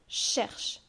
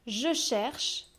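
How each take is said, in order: First: The vowel is dropped, leaving a lengthened ch. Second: The vowel of je is fully pronounced.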